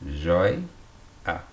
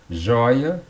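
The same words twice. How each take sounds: First: "joi-a" split by a pause; syllable by syllable. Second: Said in the usual way. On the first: Shown as a demonstration. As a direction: break "joi-a" after the diphthong. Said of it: "tá aqui na penúltima sílaba". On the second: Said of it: "o ditongo aberto tá aqui".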